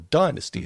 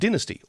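First: It is said with an American pronunciation. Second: It is said with a non-American pronunciation.

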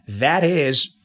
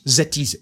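First: The first word begins with a voiced th. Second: The first word begins with a z sound. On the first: The speaker calls it right. "So we say that is" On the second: The speaker calls it wrong. "they are not pronouncing the consonant th"

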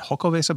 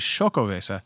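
First: The word begins with an H sound. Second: The word begins with an SH sound. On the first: The speaker calls it wrong. "I thought it was maybe an H sound" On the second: The speaker calls it right. "it's actually Xocoveza"

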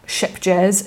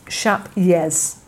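First: The name sounds like ship jazz. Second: The name sounds like shap yez. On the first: The speaker calls it wrong. "it's not ship jazz" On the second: The speaker calls it right. "So the J is a Y, and rather than sheep, it's more like shap"

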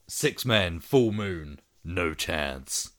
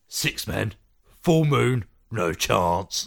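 First: It is said in an American accent. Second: It is said in a British accent. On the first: The speaker calls it wrong. "I said that in an American accent" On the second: The speaker calls it right. "Do it in a Sean Pertwee accent"

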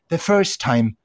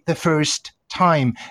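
First: The T at the end of 'first' is dropped. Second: The T at the end of 'first' is pronounced. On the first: The speaker calls it right. "Learn how to remove the last T of words" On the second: The speaker calls it wrong. "you can never don't say the first time"

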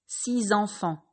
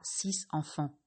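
First: A z sound links the number to the noun. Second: No z sound links the number to the noun. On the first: The speaker calls it right. "vous entendrez le son Z" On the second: The speaker calls it wrong. "et pas"

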